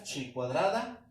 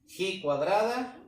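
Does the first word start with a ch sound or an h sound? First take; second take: ch sound; h sound. First: The first word starts with a ch sound. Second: The first word starts with a throaty h sound. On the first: "algunos lo nombran así como tal" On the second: "o se pronuncia así"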